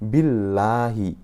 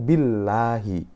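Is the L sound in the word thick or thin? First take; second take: thin; thin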